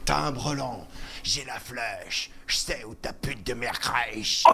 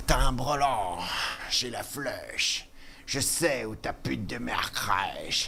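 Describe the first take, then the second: First: Low, slow rapper drawl; rapper impression. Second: Low, slow whispered rapper drawl; rapper impression. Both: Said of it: "il est un peu facile à imiter".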